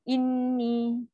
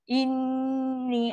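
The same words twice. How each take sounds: First: The nasal hum is cut short and rushed. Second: The nasal hum is held noticeably long. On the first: The speaker calls it wrong. "Macam cepat je" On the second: The speaker calls it right. "Dia kena lebih lagi"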